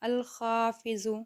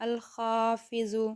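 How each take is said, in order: The two takes are said the same way.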